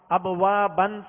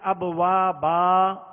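First: The word ends with an n sound. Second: The word ends with a long a vowel. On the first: The reader continues without stopping. "دو زبر کی تنوین" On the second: The reader stops on this word. "الف سے بدل کر وقف کریں گے"

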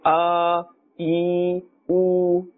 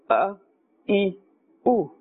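First: Each vowel is stretched out and prolonged. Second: Each vowel is cut off abruptly and short. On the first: "neither should we pull and say" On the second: "Do not jerk and say a. This will be wrong"

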